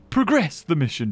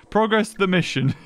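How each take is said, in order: First: "Progress" said as pruh-GRESS, like the verb; "Progress" as the verb, weight on GRESS; proGRESS, second-syllable stress. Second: "Progress" said as PRO-gress, like the noun; "Progress" as in making progress; PROgress, first-syllable stress. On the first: Says it the other way, to himself. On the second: Playing with how progress is stressed. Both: Shown as a demonstration.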